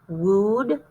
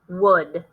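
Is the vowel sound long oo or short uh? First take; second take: long oo; short uh. First: The vowel is a long oo sound. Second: The vowel is a short uh sound. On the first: The speaker calls it wrong. "Try it with the oo sound" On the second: The speaker calls it right. "Try it with the uh sound"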